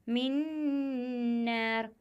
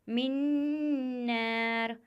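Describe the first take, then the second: Both takes have the same delivery.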